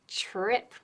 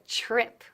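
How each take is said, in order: The two takes are said the same way.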